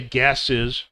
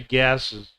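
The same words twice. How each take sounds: First: The plural ending is clearly pronounced. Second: The plural ending is not clearly pronounced. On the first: The speaker calls it right. "we need to say gases" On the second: The speaker calls it wrong. "they'll just say gases"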